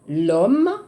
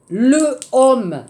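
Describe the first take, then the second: First: The article is joined onto the noun. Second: The article is a separate full syllable. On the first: The speaker calls it right. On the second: The speaker calls it wrong.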